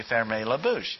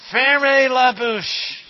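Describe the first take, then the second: First: Said in the usual way. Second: Loud, slow French command; mock teacher yell. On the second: French teacher yelling at the class to hush, loud and slow. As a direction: bark it like a strict French teacher. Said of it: "my French teacher always used to yell at us".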